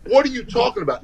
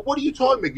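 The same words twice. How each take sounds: First: Higher, feigned innocent disbelief; mock surprised denial. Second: Higher, feigned innocent what; mock surprised denial, pitched up; mock disbelief. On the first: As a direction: play dumb, asking what he means. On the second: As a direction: act baffled and innocent. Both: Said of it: "I go".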